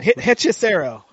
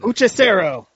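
First: The first syllable has an 'eh' vowel. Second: The first syllable has an 'oo' vowel. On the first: The speaker calls it right. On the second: The speaker calls it wrong.

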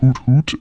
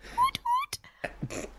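First: It is said in a deep voice. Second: It is said in a high voice.

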